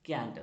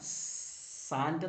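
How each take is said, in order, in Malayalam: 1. ഈ വാക്ക് k ശബ്ദത്തിലാണ് തുടങ്ങുന്നത്. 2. ഈ വാക്ക് s ശബ്ദത്തിലാണ് തുടങ്ങുന്നത്. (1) "അത് പറയുന്നത് ക്യാൻറ്റ് എന്നാണ്" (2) "അത് സാൻറ്റ് എന്നല്ല പറയുന്നത്"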